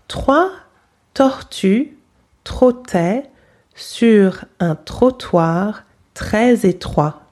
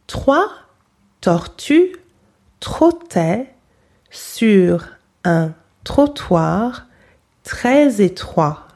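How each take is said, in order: No difference in how they are said.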